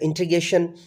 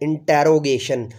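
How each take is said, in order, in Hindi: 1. यह पाकिस्तानी लहजे के बिना बोला गया है। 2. यह पाकिस्तानी लहजे के साथ बोला गया है।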